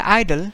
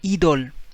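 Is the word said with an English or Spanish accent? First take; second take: English; Spanish. First: The first vowel sounds like English 'eye'. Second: The first vowel sounds like English 'ee'. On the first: "I say idol" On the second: "but he say idol"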